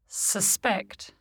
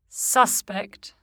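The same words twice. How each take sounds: First: The stress is on the second syllable. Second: The stress is on the first syllable. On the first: It is a verb. "the corresponding verb is stressed on the stem" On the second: It is a noun or adjective. "Many nouns and adjectives are stressed on the prefix"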